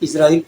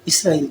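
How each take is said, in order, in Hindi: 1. पहले स्वर के बाद वाला व्यंजन z है। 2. पहले स्वर के बाद वाला व्यंजन s है। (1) "इज़राइल प्रोनाउंस नहीं किया करें" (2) "इसराइल किया करें"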